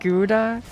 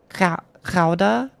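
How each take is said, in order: First: It starts with a plain hard g sound. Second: It starts with a raspy sound from the throat. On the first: "I think I'll stick with" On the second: "G is a frictive created with the back of your mouth"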